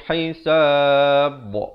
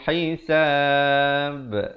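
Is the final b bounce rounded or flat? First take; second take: rounded; flat. First: The final b bounces with rounded lips. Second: The final b bounces with flattened lips. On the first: The speaker calls it wrong. "Kalau kita bulatkan pantulan dia bunyi hisab. Tak betul" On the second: The speaker calls it right. "Kita pepeskan"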